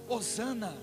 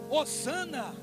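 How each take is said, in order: No difference in how they are said.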